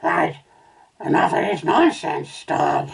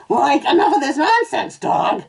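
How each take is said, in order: First: Said in the usual way. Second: High, loud cartoon slacker voice; Shaggy. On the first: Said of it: "that was supposed to be Shaggy". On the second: A narrator's reading. Cartoon owner scolds his dog, high and loud. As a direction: demand it in a high-pitched cartoon stoner voice. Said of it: "supposed to be Shaggy".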